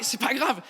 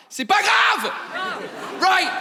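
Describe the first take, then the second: First: Said in the usual way. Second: High mock shout. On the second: Insisting to the audience that the mistake doesn't matter, high mock shout. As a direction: fling out "c'est pas grave" in a high yell. Repeated phrase, plain then yelled.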